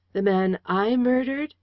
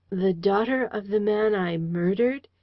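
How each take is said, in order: First: Rising, stunned question; astonished. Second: Faltering. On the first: Man stunned at being called a murderer. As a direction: disbelief breaking through. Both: A narrator's reading. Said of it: "he faltered out slowly".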